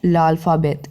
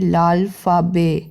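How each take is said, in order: First: The word ends with a clear final t sound. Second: The word ends without a final t sound. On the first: The speaker calls it wrong. "Not लाल्फाबेत" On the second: The speaker calls it right. "उसको हम कहेंगे लाल्फाबे"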